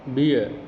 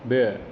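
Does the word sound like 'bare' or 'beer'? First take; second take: beer; bare. First: The vowel sounds like the one in 'beer'. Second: The vowel sounds like the one in 'bare'. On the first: The speaker calls it wrong. "It's never बियर" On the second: The speaker calls it right. "Correct"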